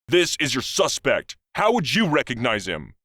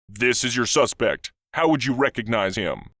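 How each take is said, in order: First: It is said in a testy tone. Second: It is said in a calm tone.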